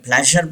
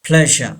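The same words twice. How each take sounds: First: "प्लेजर" with the final R sounded; wrong pronunciation. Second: "प्लेजर" as PLEZH-uh, no final R; R not pronounced. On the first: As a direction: say "प्लेजर" ending in a clear R. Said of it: "दोनों wrong हैं". (प्लेजर का आख़िरी र बोलकर) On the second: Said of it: "आर को pronounce नहीं किया जाएगा". (प्लेजर का आख़िरी र silent) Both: Shown as a demonstration.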